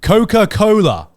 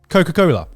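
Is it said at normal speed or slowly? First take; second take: slowly; normal. First: It is said slowly, keeping an English accent. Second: It is said at normal speed.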